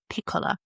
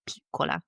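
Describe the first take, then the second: First: "piccola" with a short i in the first syllable; her own pronunciation. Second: "piccola" with a long ee in the first syllable; corrected pronunciation. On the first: Woman quoting her own try, "piccola" with short i. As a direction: say "piccola" as PICK-ola. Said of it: "E instead of E". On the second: Date correcting her word for small, "piccola" with long ee. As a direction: say "piccola" as PEE-cola. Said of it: "he was like, Okay, so small". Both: Retold or imitated.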